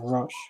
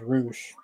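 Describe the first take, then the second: First: The vowel is a short uh sound. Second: The vowel is a long oo sound. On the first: "instead of Rush" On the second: "he pronounces it as Roosh"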